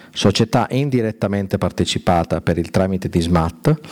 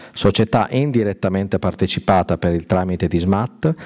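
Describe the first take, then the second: No difference in how they are said.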